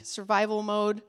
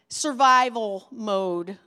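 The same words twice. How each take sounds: First: Said in the usual way. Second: "Survival mode" said slowly and loud, punching "survival"; slow, weighty survival mode. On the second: Shown as a demonstration. Pastor warning burned-out leaders, dragging out "Survival mode". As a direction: lean hard on "survival" in "Survival mode".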